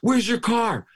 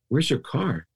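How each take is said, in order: First: It is asked in an angry voice. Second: It is asked in a calm voice.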